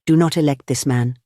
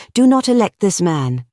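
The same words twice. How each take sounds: First: Restrained, weary entreaty; imploring plea. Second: High, forceful order; impassioned command. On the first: Gregory kneeling to the anarchists, subdued imploring. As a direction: plead it without raising the voice. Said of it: "I implore you". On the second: Gregory commanding the anarchists, impassioned order. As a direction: drive the order home. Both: A narrator's reading.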